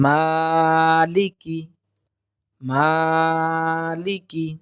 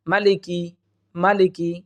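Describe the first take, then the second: First: "মালিকি" very slow, long "maa", short "ki"; correct tajweed. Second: "মালিকি" short, with no stretch on "ma"; wrong pronunciation. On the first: Teacher modelling the correct word, careful tajweed. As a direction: hold the first syllable of "মালিকি", keep the end short. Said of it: "সঠিক হচ্ছে". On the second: Teacher showing another common error, incorrect unstretched reading. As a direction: say "মালিকি" evenly and briskly. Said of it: "দুইটাই ভুল". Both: Shown as a demonstration.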